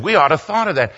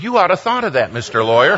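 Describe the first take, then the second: First: WE ought to thought of that, we hit as the key word; the pastor leans on we when blaming the team; stress on we. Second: YOU ought to thought of that, you hit hard and falling; stress on you. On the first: Pastor on the phone, pressing the word we. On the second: Narrator retorting to the pastor, stress on you. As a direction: turn it back on him by punching you. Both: Retold or imitated. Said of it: "And he said".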